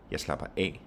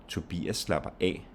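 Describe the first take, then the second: First: Only final "af" stressed, "Jeg slapper" light. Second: "Tobias" and "af" stressed, "slapper" light. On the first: Teacher showing phrasal verb, stress only on "af". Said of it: "So only stress on A". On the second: Teacher swapping in a name, stress on "Tobias" and "af". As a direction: put weight on "Tobias" and final "af". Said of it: "you get the stress on Tobias". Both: Shown as a demonstration.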